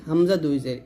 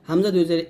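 The two takes are said the same way.

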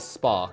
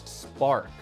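First: The R sound is dropped. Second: The R sound is pronounced strongly. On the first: "英国人怎么说呢？其实很多词尾的或者就是音节末尾的这些R，他们就不会发出来" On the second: "我们美式英语当中比较重要的一个点就是我们所有的R 发的非常重"

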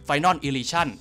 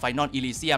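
First: The last word ends with an 'on' sound. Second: The last word ends with an 'um' sound.

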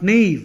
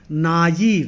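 First: The two middle vowels are fused into one syllable. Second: The two middle vowels are said as separate syllables. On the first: The speaker calls it wrong. "not naive. You should not fuse that" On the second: The speaker calls it right. "the adjacent vowels have to be independently pronounced"

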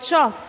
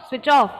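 First: The words merge into one short syllable. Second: Both words are said fully and separately.

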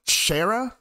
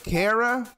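First: The name begins with an SH sound. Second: The name begins with a K sound. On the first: The speaker calls it wrong. "some people say Shara. And I don't think Shara is the correct pronunciation" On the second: The speaker calls it right. "I'd say it's Kara because, like, character"

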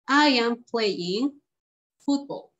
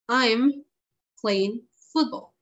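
First: I am is said as two full words. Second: I am is contracted into one syllable. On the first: "long forms" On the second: "Contracted forms"

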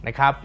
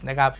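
No difference in how they are said.

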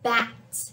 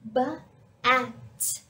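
First: The word is said as one with no pause. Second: The word is split into sounds with a pause.

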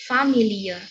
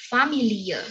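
No difference in how they are said.

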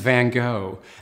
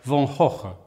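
First: It is said the American way. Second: It is said the Dutch way.

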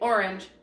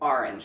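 First: The first vowel sounds like 'or'. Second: The first vowel sounds like 'ar'. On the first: "I don't say orange" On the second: "like A-R-E-N-G-E. Welcome to your South Jersey girl"

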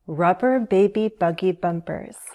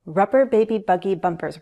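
First: The phrase is said slowly. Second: The phrase is said quickly. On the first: "Slow it down if you need to" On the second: "Let's say it 3 times fast"

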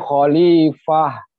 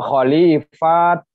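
First: The word ends with a soft h sound. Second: The word ends with a clipped t sound. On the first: The speaker calls it right. "tapi khalifah, fah menjadi he" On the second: The speaker calls it wrong. "atau khalifat, bukan begitu"

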